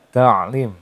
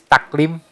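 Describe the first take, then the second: First: The middle consonant is a deep throat sound. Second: The middle consonant is a k sound. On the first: The speaker calls it right. "Itu penggunaan uh, penempatan suara ain yang benar" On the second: The speaker calls it wrong. "nah itu menggunakan huruf uh, kaf"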